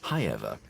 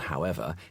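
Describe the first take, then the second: First: The word begins with a 'high' sound. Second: The word begins with a plain 'how' sound. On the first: This is an old-fashioned 1940s received pronunciation. "he actually says hi-ever" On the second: This is the ordinary modern pronunciation. "rather than however"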